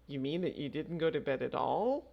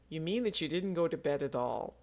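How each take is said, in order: First: The voice rises at the end. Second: The voice falls at the end. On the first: It is asked as a question. "as a question" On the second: It is a plain statement. "just a statement"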